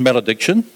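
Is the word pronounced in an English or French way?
English. It is pronounced with English sounds. "I'll give it an English pronunciation"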